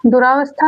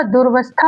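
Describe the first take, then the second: First: "दुरावस्था" as du-raa-vas-thaa; full "raa" syllable in "दुरावस्था"; wrong long vowel. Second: "दुर्वस्था" as dur-vas-thaa; correct short form. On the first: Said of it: "दुरावस्था नहीं होगा". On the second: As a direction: say "दुर्वस्था" with no long aa after the r. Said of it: "क्या होगा?". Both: Shown as a demonstration.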